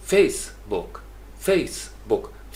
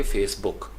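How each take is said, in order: First: Facebook slowly as FACE... book, book light; strong first syllable, light ending on Facebook; stress on FACE. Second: Facebook as face-BOOK, like a verb; weight on the BOOK of Facebook; stress on second syllable. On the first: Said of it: "फेस के ऊपर stress ज़्यादा होगा". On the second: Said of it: "verb बनाएंगे तो फिर आप कहेंगे". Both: Shown as a demonstration.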